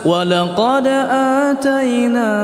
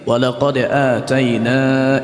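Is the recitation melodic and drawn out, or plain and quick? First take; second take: melodic; plain. First: It is recited slowly with a drawn-out melody. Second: It is recited quickly without a melodic tune. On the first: It uses up the time. The speaker calls it wrong. "sudah habis waktu" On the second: It saves time when memorizing. The speaker calls it right. "Ini menghafal dengan tidak memakai irama"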